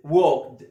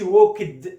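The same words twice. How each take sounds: First: Walked in one syllable, "wokd"; loud, falling one-beat walked, silent L; correct pronunciation. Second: Walked in two syllables, "wok-id"; wrong pronunciation. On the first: (نطق walked بمقطع واحد دون اللام) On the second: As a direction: loudly say walked as mistaken "walk-ed". (نطق walked خطأً بمقطعين "ووكِد") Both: Shown as a demonstration. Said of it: "ما تقولش walked".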